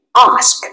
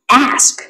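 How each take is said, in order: First: British English. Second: American English. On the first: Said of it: "Anh Anh". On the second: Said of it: "Anh Mỹ". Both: Shown as a demonstration.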